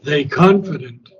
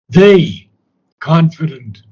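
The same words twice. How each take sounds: First: The words run together without a pause. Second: There is a pause after 'they'. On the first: The speaker calls it wrong. "Not they confident" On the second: The speaker calls it right. "that's the way we have to say it"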